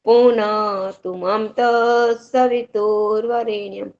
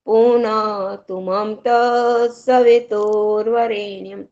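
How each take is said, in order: Both takes have the same delivery.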